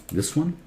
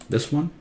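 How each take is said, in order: No difference in how they are said.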